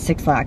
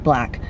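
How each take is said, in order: First: The name is said as two words, six lack. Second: The name is said as one word, black. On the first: The speaker calls it wrong. "it's not pronounced that way" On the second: The speaker calls it right.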